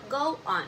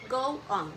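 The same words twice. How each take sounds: The two takes are said the same way.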